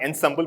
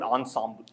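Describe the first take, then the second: First: It is said with a plain English pronunciation. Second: It is said with a French-style pronunciation. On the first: The speaker calls it wrong. "it's not ensemble" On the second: The speaker calls it right. "but ensemble"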